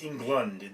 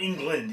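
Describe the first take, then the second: First: The second syllable sounds like 'lund'. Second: The second syllable sounds like 'land'. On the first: The speaker calls it right. "it's Englund. There's a U in it" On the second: The speaker calls it wrong. "It's not England"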